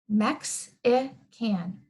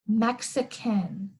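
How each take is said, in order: First: The word is broken into three separate chunks. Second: The word is said as one smooth whole. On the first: "let's try making this I a syllable all by itself" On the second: "Put it all together"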